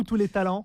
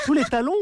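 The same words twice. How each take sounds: First: "talents" ending in open nasal -an. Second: "talons" ending in rounded nasal -on; talons with closed nasal. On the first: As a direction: say "talents" distinctly, last vowel open and unrounded. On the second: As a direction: say "talons" distinctly, lips rounded on the last vowel. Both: Shown as a demonstration. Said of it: "tous les talons ou tous les talents".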